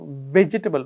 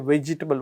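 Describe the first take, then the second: First: It begins with a clear V sound. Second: It begins with a W-like sound. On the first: This is how it should be said. The speaker calls it right. "the way we pronounce it should be vegetable" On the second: This is how Indian speakers usually say it. The speaker calls it wrong. "the vegetable that we say vegetable"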